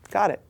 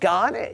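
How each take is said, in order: First: It is said in a calm, acknowledging tone. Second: It is said in a confrontational, aggressive tone.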